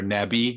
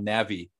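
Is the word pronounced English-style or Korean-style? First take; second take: Korean-style; English-style. First: It is said with a Korean-style pronunciation. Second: It is said with an English-style pronunciation. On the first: "as they pronounce it here" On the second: "It's called Kakao Navi, N-A-V-I"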